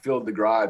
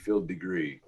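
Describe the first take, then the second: First: The surname ends with an "eye" sound. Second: The surname ends with an "ee" sound. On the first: The speaker calls it wrong. "I'm Phil DeGry, the out of tune guy" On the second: The speaker calls it right. "but actually Phil Degree"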